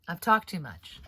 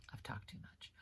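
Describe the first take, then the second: First: Said in the usual way. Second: Whispered, much softer and lower; whispered aside. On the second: Shown as a demonstration. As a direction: murmur it to yourself in a whisper. Repeats the line whispered.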